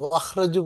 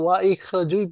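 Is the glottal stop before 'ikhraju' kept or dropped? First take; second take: dropped; kept. First: The words run together without the glottal stop. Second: The glottal stop before the second word is kept. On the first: The speaker calls it wrong. "ওয়াখরাজু পড়া যাবে না" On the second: The speaker calls it right. "এটা স্যার পড়তে ওয়া ইখরাজুই পড়তে হবে"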